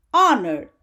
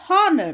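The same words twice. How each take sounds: First: "honor" starting on the vowel, "on-er"; silent h. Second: "honor" with the h wrongly pronounced, "hon-ner"; sounded h. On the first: Teacher showing the correct word, "honor" with silent h. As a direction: drop the h and open "honor" on its vowel. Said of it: "used for silent H". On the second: Teacher showing students the mistake, "honor" with a sounded h. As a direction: start "honor" on an audible h. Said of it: "That is wrong". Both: Shown as a demonstration.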